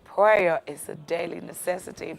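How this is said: It is said imitating another man's voice.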